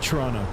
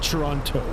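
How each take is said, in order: First: The T sounds are dropped. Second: The T sounds are clearly pronounced. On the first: This is how locals say it. "I don't pronounce the T's" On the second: This is how outsiders say it. "I don't pronounce it Toronto"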